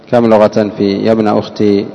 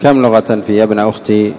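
The two takes are said the same way.

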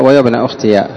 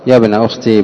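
First: يا ابن أختي with the ya opened, ukhtiya; with voweled ya. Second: يا ابن أختي ending in a silent ي, ukhtī. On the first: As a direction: say أختي with a short a after the final ya. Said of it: "فتح الياء". (بفتح الياء في أختي: أختيَ) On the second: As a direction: say أختي with the final ya held still, no vowel after it. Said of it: "بإسكان الياء". (بإسكان الياء في أختي) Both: Shown as a demonstration.

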